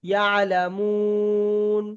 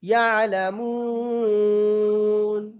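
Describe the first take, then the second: First: The vowel is stretched for a medium length. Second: The vowel is stretched for a long length. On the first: "দু আলিপ টান দিই, তাহলে একটু বেশি টান দিতে হবে" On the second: "তিন আলিপ টান দিই আরেকটু বেশি দিতে হবে"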